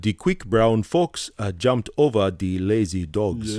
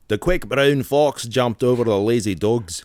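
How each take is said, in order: First: It is said in a Nigerian accent. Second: It is said in a Scottish accent.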